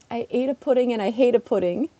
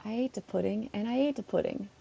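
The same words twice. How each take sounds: First: "hate" with a clear h sound; "hate" fully with h, rising; aspirated h. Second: "ate" said with no h at all; "ate" twice, plain and falling; dropped h. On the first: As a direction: say "hate" starting with a breathy h. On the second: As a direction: say "ate" both times, no breath before it. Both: Shown as a demonstration. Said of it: "pronouncing hate with an accent".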